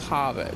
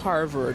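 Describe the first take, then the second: First: It is said in a Boston accent. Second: It is said in a standard American accent. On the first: "it's Harvard... the A's sound a little different and the R's are a little different" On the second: "Instead of saying Harvard"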